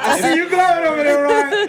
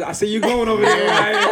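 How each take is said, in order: First: High, laughing teasing call-out; gleeful teasing. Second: Teasing call-out in a usual pitch. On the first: Teasing Ryan again about going over there, gleeful. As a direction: rib him gleefully, pitched up. Repeats the tease, livelier. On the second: Teasing Ryan about going over there, amused. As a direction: tease him lightly, amused. Teases Ryan, first take. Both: Real, not acted.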